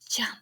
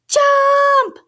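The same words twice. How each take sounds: First: The word is whispered softly. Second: The word is shouted loudly. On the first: "Can we whisper it?" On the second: "Can we shout it?"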